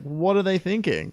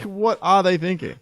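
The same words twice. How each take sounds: First: Said in the usual way. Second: "are" hit hard, high and exasperated; stress on ARE. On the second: Acted. Critic questioning the forum's praise, incredulous stress on "are".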